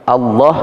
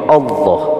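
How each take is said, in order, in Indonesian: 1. Vokal setelah L terdengar seperti 'a'. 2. Vokal setelah L terdengar seperti 'o'. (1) "membaca tebalnya berubah" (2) "a dibaca o atau lam dibaca lo"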